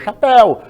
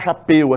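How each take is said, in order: First: The last syllable has an open e vowel. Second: The last syllable has a closed e vowel. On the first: The speaker calls it right. "é o aberto" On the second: The speaker calls it wrong. "Ninguém fala chapéu"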